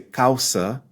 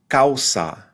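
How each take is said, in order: First: The final vowel is reduced to a schwa. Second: The final vowel is a full, clear a. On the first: The speaker calls it wrong. "Avoid the schwa. Don't say causa" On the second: The speaker calls it right. "say causa"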